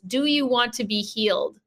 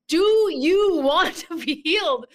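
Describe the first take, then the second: First: The question is asked at a normal volume. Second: The question is asked loudly, almost shouting.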